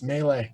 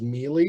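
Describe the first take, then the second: First: The word is pronounced the usual way. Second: The word is pronounced as it is spelled. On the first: The speaker calls it right. "no, it's melee" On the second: The speaker calls it wrong. "I would read it as melee"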